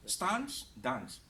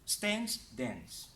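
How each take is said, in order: First: British long "ah" in "Stance, dance"; British pronunciation. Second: American flat "a" as in cat in "Stance, dance"; American pronunciation. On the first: Teacher offering a choice of accents, British pronunciation. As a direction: say "stahnce, dahnce" the British way. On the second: Teacher offering a choice of accents, American pronunciation. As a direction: say "stance, dance" the American way, short front vowel. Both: Shown as a demonstration. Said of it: "British versus American is your choice".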